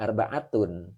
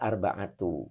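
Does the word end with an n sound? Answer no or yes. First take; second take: yes; no. First: The word ends with an n sound. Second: The word ends on a plain u vowel. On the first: The speaker calls it wrong. "Ini dibaca tidak arba'atun" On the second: The speaker calls it right. "dibaca arba'atu"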